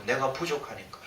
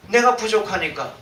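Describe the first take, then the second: First: 내가 부족하니까 dropped much softer, trailing down; quiet repeat. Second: 내가 hit higher, the rest falling; stress on 내가. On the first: Pastor repeating his confession to himself, softly. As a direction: murmur it back to yourself. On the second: Pastor confessing his weakness, stressing 내가. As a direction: lean hard on 내가. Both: Real, not acted.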